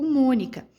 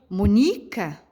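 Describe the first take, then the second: First: The stress is on the first syllable. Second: The stress is on the second syllable. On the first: The speaker calls it right. "a sílaba mais forte é o Mônica" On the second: The speaker calls it wrong. "se eu fosse pronunciar a sílaba mais forte da palavrinha Mônica no ni"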